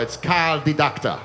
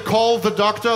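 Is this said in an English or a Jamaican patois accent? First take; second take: Jamaican; English. First: It is said in a Jamaican patois accent. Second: It is said in a standard English accent. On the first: The speaker calls it right. "You want Jamaican patois" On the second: The speaker calls it wrong. "Don't say, call the doctor, that's English"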